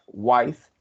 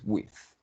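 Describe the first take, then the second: First: The word sounds like 'wife'. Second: The word sounds like 'with'. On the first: The speaker calls it wrong. "a veces vi que decías wife" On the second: The speaker calls it right. "la pronunciación es with"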